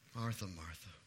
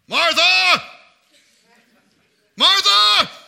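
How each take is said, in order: First: It is said softly and tenderly. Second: It is shouted harshly.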